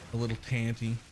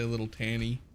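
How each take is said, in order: First: The second T is clearly pronounced. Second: The second T is dropped entirely. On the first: The speaker calls it right. "A little tanty is better" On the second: The speaker calls it wrong. "but I say a little tanny. But there's a T in there. I just don't say it"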